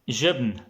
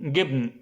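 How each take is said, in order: First: The word starts with a j sound. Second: The word starts with a hard g sound. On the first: "this was the classic way" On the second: "I'll say it in the Egyptian way"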